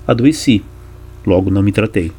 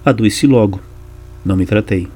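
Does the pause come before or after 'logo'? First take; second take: before; after. First: The pause comes before the word logo. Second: The pause comes after the word logo.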